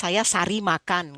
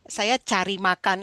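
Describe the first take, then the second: First: The word cari starts with an S sound. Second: The word cari starts with a CH sound. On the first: The speaker calls it wrong. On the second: The speaker calls it right.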